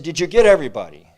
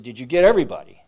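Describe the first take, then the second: First: Loud eager shout toward the boats; calling out. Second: Loud urgent call from the shore. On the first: Townspeople shouting to the returning boats, loud and eager. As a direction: holler the question across the water. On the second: Townspeople calling out to survivors, loud and urgent. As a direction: shout the question to the survivors. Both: Retold or imitated.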